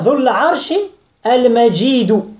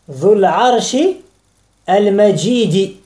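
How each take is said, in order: First: The last word ends with an 'oo' vowel. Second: The last word ends with an 'ee' vowel. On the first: The glorious one is God. "avec le son ou" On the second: The glorious one is the throne. "Et al-majid, il y a aussi la kasra"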